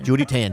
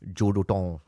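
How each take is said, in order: First: The name is said as two clear words. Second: The name is run together as one blurred word. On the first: The speaker calls it right. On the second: The speaker calls it wrong.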